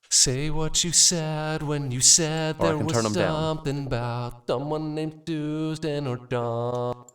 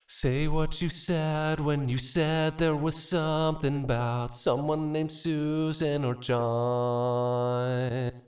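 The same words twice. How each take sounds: First: The S sounds are turned up and louder. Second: The S sounds are toned down and softer. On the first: "I can turn up my S's" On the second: "let's just do more of a sane setting here and turn down this a little bit"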